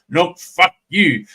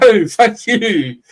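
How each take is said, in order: First: It sounds harsh and scolding. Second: It sounds light and playful.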